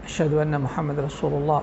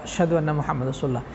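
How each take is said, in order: The two takes are said the same way.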